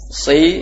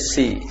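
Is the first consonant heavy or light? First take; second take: heavy; light. First: The first consonant is heavy, with the tongue raised. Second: The first consonant is light, with the tongue lowered. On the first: The speaker calls it right. "Si naik" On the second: The speaker calls it wrong. "Kalau tidak naik jadi si"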